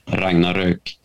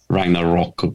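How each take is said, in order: First: The name is said with a Swedish pronunciation. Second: The name is said with an English pronunciation. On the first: This is what it is properly called. "but it's called Ragnarök" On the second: This is how English speakers say it. "or Ragnarok, what you say"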